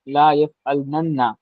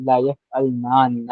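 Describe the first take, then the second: First: A doubled n sound comes before the final syllable. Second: A long aa vowel separates the two n sounds. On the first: The speaker calls it wrong. "तो ऐसे कोई अरब जो है प्रोनाउंस नहीं करते।" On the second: The speaker calls it right. "अरब की प्रोनाउंसिएशन जो है"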